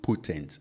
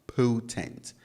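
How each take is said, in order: First: Potent with a flat, unmoving O; pure O potent. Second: Potent with a gliding ow O, drawn out; diphthong potent. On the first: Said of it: "It's not potent". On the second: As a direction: say potent with the English glide. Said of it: "it's potent". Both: Shown as a demonstration.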